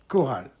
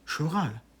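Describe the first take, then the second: First: The word begins with a hard k sound. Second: The word begins with a soft sh sound. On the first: The speaker knows what the word refers to. The speaker calls it right. "et la même chose ici, co" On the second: The speaker does not know what the word means. The speaker calls it wrong. "ils vous disent carrément choral"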